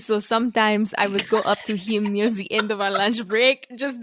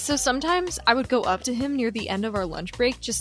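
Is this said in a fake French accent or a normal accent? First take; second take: French accent; normal accent. First: It is spoken in a put-on French accent. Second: It is spoken in the speaker's normal accent.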